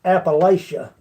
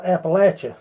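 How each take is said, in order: First: "Appalachia" with a long "lay" sound, ap-uh-LAY-shuh; wrong pronunciation. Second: "Appalachia" with a short "latch" sound, ap-uh-LATCH-uh; local pronunciation. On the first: Correcting outsiders on the name, saying "Appalachia" as ap-uh-LAY-shuh. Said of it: "it's not called Appalachia". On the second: A local teaching viewers the name, saying "Appalachia" as ap-uh-LATCH-uh. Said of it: "It's called Appalachia". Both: Shown as a demonstration.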